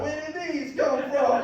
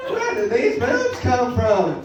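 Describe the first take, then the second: First: High-pitched, hammed-up Italian accent; Italian accent impression. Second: High, drawn-out observational-comic question; Jerry Seinfeld. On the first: Comic puzzling over new body, in a put-on Italian accent. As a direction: ask it like a baffled cartoon Italian. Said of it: "Just talk like a fucking Italian". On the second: Acted. Comic puzzling over new body, as a Seinfeld impression. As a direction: stretch it out like a baffled stand-up. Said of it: "I can do Seinfeld too".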